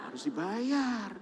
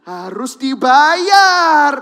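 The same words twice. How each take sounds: First: Plain. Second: Very slow, loud, high, anguished stress; drawn-out, crying shout; emphatic cry. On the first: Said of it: "plain statement then repeat". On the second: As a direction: hammer home that it must be paid. Preacher repeats for emphasis. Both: Real, not acted.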